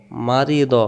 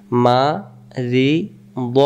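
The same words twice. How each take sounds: First: Said in the usual way. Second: মারিদ drawn out very slowly; teacher slowing মারিদ right down; very slow demo. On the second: Shown as a demonstration. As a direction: stretch মারিদ out long for the pupils. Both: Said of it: "slow then normal take".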